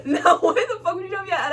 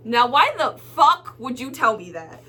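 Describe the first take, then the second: First: High-pitched incredulous retort through laughter; laughing indignation. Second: Indignant with a punched curse; indignant retort. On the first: Customer retelling cashier's insult, laughing indignation. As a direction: repeat the complaint, cracking up in a higher voice. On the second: Customer to rude cashier, indignant retort. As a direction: demand an explanation, stressing the curse. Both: Retold or imitated.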